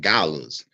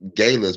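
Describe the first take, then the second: First: The first syllable does not sound like 'gay'. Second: The first syllable sounds like the word 'gay'. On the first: This is the ordinary name for the event. "it's really called galas"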